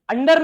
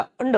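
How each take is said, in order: First: "अंडर" with a hard final r, high and loud; Hindi-style "अंडर", r fully pronounced; wrong r-full ending. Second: "अंड" ending on a short uh; r-less ending. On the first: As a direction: sound out the r in "अंडर". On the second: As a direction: say "अंड" as "un-duh", no r. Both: Shown as a demonstration. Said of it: "अंडर नहीं है बेटा".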